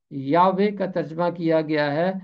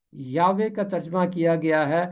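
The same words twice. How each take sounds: The two takes are said the same way.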